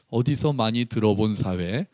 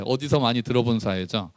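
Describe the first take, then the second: First: 어디서 많이 들어본 사회? asked softly with a rising end; rhetorical question. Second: 어디서 많이 들어본 사회죠 closed with a falling, knowing tune; knowing answer. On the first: (어디서를 올려 묻는 말투) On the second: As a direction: settle it with 어디서 stressed, falling end. (어디서에 힘주고 끝을 내리는 확인 말투) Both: Shown as a demonstration.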